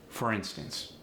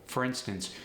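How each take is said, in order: No difference in how they are said.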